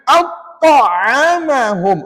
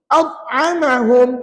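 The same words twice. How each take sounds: First: The t has a heavy, exaggerated bounce. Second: The t has no bounce at all. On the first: "jangan berat" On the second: "Langsung tak bunyi qalqalah pada ta"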